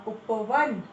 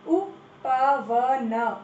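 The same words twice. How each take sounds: First: Said in the usual way. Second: उपवन drawn out as u-pa-va-na; syllable by syllable. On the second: Shown as a demonstration. Teacher sounding out उपवन slowly for the class. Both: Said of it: "सही उच्चारण करो".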